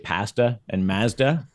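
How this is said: The words have a Canadian vowel pronunciation.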